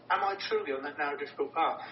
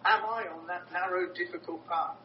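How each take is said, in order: First: Faster, with "truly" stressed. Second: Searching self-question. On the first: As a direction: press the question harder on "truly". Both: Shown as a demonstration.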